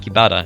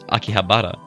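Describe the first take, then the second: First: The middle h sound is left out. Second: The middle h sound is clearly pronounced. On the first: The speaker calls it wrong. "it's not Akibara" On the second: The speaker calls it right. "There's an H in there"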